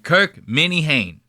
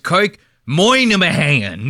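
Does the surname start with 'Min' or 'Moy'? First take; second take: Min; Moy. First: The surname begins with a 'Min' sound. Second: The surname begins with a 'Moy' sound. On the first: The speaker calls it right. "say it like it's spelled" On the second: The speaker calls it wrong. "they pronounce it the fucking crazy"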